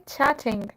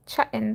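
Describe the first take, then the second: First: "chatting" with a crisp middle T; "chatting" said in full, T and final NG; fully sounded T. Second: "chatting" with the middle T skipped; "chatting" with a catch instead of the T; British dropped T. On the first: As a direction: pronounce every T in "chatting". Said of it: "They don't say chatting". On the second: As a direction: say "chatting" like a Brit, swallowing the T. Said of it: "as Britishers would say". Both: Shown as a demonstration.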